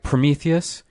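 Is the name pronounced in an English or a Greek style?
English. The name is said in ordinary English style.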